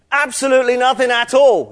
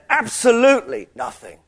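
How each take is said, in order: First: Every word of "Absolutely nothing at all" driven higher and louder; pressing the point. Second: ABSOLUTELY stressed and lifted before NOTHING; emphatic. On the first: Preacher showing Gabriel's even stronger "Absolutely nothing at all", emphatically pressed. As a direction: punch out "Absolutely nothing at all" with extra force. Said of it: "You're really pressing your point". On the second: Preacher voicing what the angel is saying, emphatic. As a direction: lean hard on the word "absolutely". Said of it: "it's, it's, it's emphatic". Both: Shown as a demonstration.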